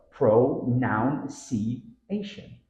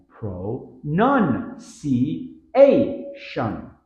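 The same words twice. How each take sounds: First: Pronunciation slowly as pro-NOUN-see-ation; common error. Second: Pronunciation very slowly as pro-NUN-see-AY-shun; five spaced beats of Pronunciation, loud on NUN and AY; syllable-by-syllable. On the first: Teacher demonstrating the common error, extra O. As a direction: separate pronunciation with noun as second beat. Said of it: "Common error". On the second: Teacher showing the stress pattern, syllable by syllable. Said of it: "Stress pattern". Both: Shown as a demonstration.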